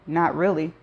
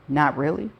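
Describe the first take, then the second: First: Said in the usual way. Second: "Not really" echoed with a disbelieving rise; mock her words back in disbelief; incredulous echo. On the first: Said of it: "That's not what he asked". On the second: A narrator's reading. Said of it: "And your answer is".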